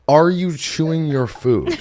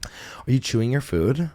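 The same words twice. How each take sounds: First: Slow, higher, drawn-out mocking repeat; incredulous mock question. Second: Slow, measured question with a rise; imitated dietitian question. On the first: Host mocking dietitian friend's question, slow, high and incredulous. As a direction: repeat it slowly as if it were absurd. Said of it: "what kind of question does another human being". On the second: Dietitian friend asking about digestive problems, slow measured question. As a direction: ask it slowly, like a dietitian checking. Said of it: "she goes".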